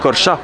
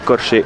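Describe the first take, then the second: First: The name ends with an 'ah' sound. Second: The name ends with an 'ay' sound. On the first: The speaker calls it right. "ça se prononce Corcha" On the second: The speaker calls it wrong. "Ça s'écrit Corché"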